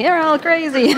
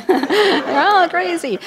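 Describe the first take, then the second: First: Put-on high, loud Italian-accented exasperated cry; Italian family exasperation. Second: Put-on high, loud, slow Italian-accented cry; Italian family exasperation. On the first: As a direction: throw up your hands like an Italian mother. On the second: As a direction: drag it out like an exasperated Italian mother. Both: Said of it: "Sounds like from an Italian family".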